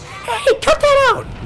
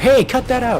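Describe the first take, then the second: First: It is said in a high-pitched voice. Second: It is said in a normal-pitched voice. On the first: The speaker calls it right. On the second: The speaker calls it wrong. "I can't do a high-pitched Tails voice"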